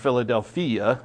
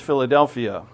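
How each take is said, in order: First: The word is pronounced the Greek way. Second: The word is pronounced the usual English way.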